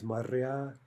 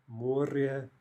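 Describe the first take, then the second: First: Моря with stress on the final я; stress on last syllable. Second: Море with stress on the о; stress on first syllable. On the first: Teacher showing the plural, моря stressed on the ending. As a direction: slowly land on the end of моря. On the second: Teacher showing the singular, море stressed up front. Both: Shown as a demonstration. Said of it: "jump to the other syllable".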